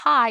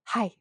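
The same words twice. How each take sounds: First: It is said in a plain voice. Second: It is said in a breathy voice.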